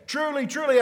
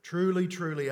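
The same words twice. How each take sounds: First: Loud, high proclamation. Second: Said in the usual way. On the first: Acted. Formula again at full force.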